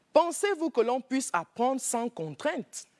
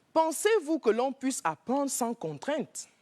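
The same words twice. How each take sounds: Both takes have the same delivery.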